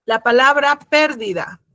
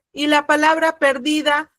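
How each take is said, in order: First: Pérdida with the stress on the first syllable, PÉR-di-da; teacher says pérdida stressing the first syllable. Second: Perdida with the stress on the middle syllable, per-DI-da; teacher says perdida stressing the middle syllable. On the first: Teacher contrasts pérdida with perdida, stressing PÉR. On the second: Teacher contrasts perdida with pérdida, stressing DI. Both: Shown as a demonstration.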